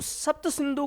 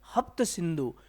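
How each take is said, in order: First: The words begin with an s sound. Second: The words begin with an h sound. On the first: "ये से को बोलते थे है" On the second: "से को है बोल रहे हैं"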